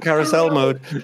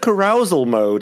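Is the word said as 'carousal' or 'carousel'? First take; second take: carousel; carousal. First: The word is said like 'carousel'. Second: The word is said like 'carousal'. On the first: The speaker calls it right. "the what?" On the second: The speaker calls it wrong. "My brother wants to mispronounce carousel like carousal"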